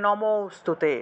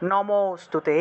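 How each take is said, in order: Both takes have the same delivery.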